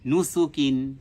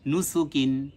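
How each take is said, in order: The two takes are said the same way.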